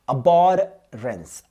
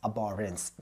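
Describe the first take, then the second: First: Abhorrence drawn out very slowly, syllable by syllable; slow dictation of abhorrence; slow teaching pronunciation. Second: Said in the usual way. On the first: Shown as a demonstration. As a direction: stretch abhorrence out so students catch each sound. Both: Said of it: "ध्यान दीजिए".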